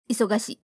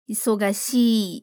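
First: The final vowel is cut short. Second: The final vowel is held long. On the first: The speaker calls it wrong. "e não isogashii" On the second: The speaker calls it right. "que é uma vogal longa no final"

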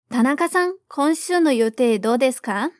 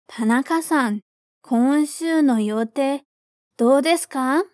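First: The sentence is spoken quickly. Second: The sentence is spoken slowly. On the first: "vamos mais rápido agora" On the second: "Primeiro, devagar"

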